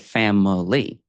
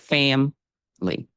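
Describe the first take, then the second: First: The middle vowel is kept, giving three syllables. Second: The middle vowel is dropped, giving two syllables. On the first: "it is possible to not drop the schwa sound" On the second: "just drop that second syllable completely"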